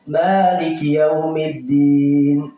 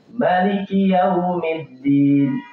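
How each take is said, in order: First: The first vowel of Maliki is long. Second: The first vowel of Maliki is short. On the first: "ada yang mimnya panjang" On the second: "ada mimnya yang pendek"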